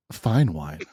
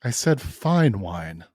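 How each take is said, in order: First: "fine wine" said low and measured; understated emphasis. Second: "fine wine" drawn out slowly; insistent stress. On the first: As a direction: present "fine wine" gently, dropping the pitch. First offer of the wine. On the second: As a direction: insist on "fine wine", stretching each word. Insists after being questioned about wine. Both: Acted.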